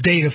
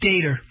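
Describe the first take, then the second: First: It is said with an ordinary everyday pronunciation. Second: It is said mimicking another person's different pronunciation. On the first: This is how ordinary people say it. "that's data for us regular folks" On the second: This is how a particular official says it. "For Fauci, it's data"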